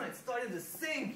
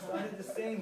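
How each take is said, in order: First: It is said with confident, committed conviction. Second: It is said hesitantly, without conviction. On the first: The speaker fully believes the story is funny. The speaker calls it right. "believe it, just be like... really sell that" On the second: The speaker is unsure the story is funny. The speaker calls it wrong. "I won't have that belief in what I'm saying"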